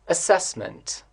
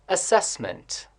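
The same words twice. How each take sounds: The two takes are said the same way.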